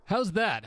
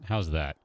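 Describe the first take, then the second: First: High put-on voice; joke "normal" voice. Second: Said in the usual way. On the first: Shown as a demonstration. Streamer demonstrating his supposed normal speech, high joke voice. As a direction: pitch it way up as a mock everyday voice. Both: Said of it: "that's how I normally speak".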